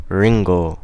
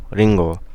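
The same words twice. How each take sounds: The two takes are said the same way.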